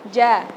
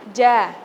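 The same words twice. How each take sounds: The two takes are said the same way.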